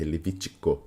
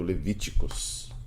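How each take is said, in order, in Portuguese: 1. A palavra termina sem som de s. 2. A palavra termina com som de s. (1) "É Levítico" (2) "Eu já vi gente falando Levíticos"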